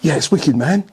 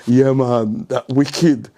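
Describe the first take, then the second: First: It is said in a present-day school dialect. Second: It is said in a Jamaican accent.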